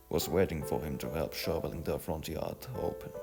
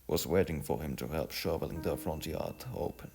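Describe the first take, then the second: No difference in how they are said.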